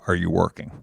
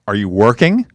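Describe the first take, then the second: First: It is asked in a soft, considerate tone. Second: It is asked in an accusing, annoyed tone.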